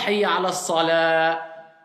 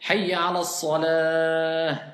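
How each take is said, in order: First: The last word ends with an abrupt stop. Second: The last word ends with a soft h. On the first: The speaker calls it wrong. "là j'ai coupé. C'est comme si j'avais mis une hamza" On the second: The speaker calls it right. "le ta marbuta devient ha. On va dire"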